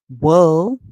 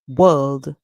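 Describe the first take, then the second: First: The word ends without a d sound. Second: The word ends with a clear d sound. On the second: "British English"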